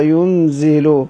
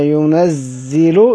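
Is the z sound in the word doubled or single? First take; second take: single; doubled. First: The n is closed and the z is single. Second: The z sound is doubled, with an open n. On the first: "بالسكون النون ين وتخفيف الزاي زي" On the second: "بدل ما قرأت التشديد ينزل"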